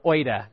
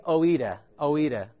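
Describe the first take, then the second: First: "oida" in two syllables, OY-duh; alternative Greek pronunciation. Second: "oida" in three syllables, oh-EE-duh; tentative Greek pronunciation. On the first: Preacher offers the other version of the Greek word, "oida" as OY-duh. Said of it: "depending on who you're talking to". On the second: Preacher tries a tricky Greek word for the congregation, "oida" as oh-EE-duh. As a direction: say "oida" as oh-EE-duh, splitting the first vowels. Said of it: "I'm not exactly sure how to say this". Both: Shown as a demonstration.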